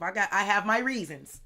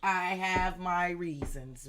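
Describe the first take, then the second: First: Loud outburst with pitch climbing; loud self-defence. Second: Loud, drawn-out words at normal pitch; slow, deliberate restatement. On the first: Reader defends being bad at receiving help, loud outburst. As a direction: burst out defensively at full volume. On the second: Reader restates the excuse for not accepting help, slow and deliberate. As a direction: stretch each word out deliberately. Repeats the defence deliberately after outburst. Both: Real, not acted.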